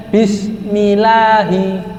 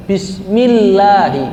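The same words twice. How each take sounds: First: "bismillahi" slow with a single quick l; tasydid dropped. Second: "Bismillahi" slow, "ll" held long and doubled; correct tasydid. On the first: Teacher showing the wrong way, l not doubled. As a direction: chant it but let the double l vanish. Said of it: "Mana tasdidnya? Hilang". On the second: Teacher showing the right way, doubled l. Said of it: "Harus dibaca tasdidnya, jelaskan". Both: Shown as a demonstration.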